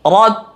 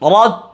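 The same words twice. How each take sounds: The two takes are said the same way.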